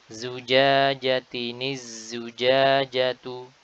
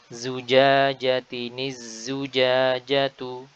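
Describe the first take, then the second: No difference in how they are said.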